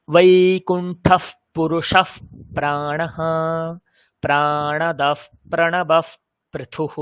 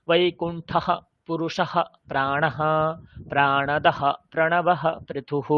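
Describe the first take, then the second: First: চন্দ্রবিন্দু নয়, বিসর্গকে ফ করে ধীরে উচ্চারণ; visarga as f. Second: Slow reading with বৈকুণ্ঠঃ and পুরুষঃ ending in a plain h sound; বিসর্গকে হ রেখে ধীরে উচ্চারণ; visarga as h. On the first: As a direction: say প্রাণদফ প্রণবফ with the visarga turned into a breathy f sound. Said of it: "এই উচ্চারণটা ঠিক লাগছে শুনতে". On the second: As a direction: say প্রাণদহ প্রণবঃ with the visarga kept as an h breath. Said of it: "এই উচ্চারণটা শুনতে ভালো লাগছে?". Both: Shown as a demonstration.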